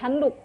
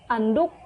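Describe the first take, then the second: First: The word begins with an h sound. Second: The word begins directly with a vowel. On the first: The speaker calls it right. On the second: The speaker calls it wrong.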